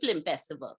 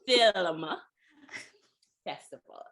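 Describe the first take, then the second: First: The first word sounds like flim. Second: The first word sounds like film. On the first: The speaker calls it wrong. "it's not Third Horizon Film Festival. You may say it like that, but it's not really that" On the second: The speaker calls it right. "It's film festival"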